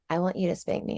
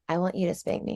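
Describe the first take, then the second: First: The voice is creaky with vocal fry. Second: The same.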